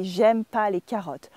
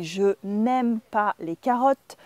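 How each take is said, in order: First: Casual spoken French "J'aime pas", negation shortened; dropped ne. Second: Careful textbook French, pronouncing the n' in "n'aime"; full textbook negation. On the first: French teacher shows how natives drop ne, casual and connected. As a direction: say "J'aime pas" run together, no n sound. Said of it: "we say". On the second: French teacher shows learners the textbook negative, careful and slow. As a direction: say "Je n'aime pas" slowly, with the ne kept. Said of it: "instead of saying". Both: Shown as a demonstration.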